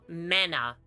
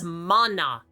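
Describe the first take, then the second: First: The first vowel sounds like 'a' in 'man'. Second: The first vowel is an open 'ah' sound. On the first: The speaker calls it wrong. "not mana" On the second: The speaker calls it right. "It's mana"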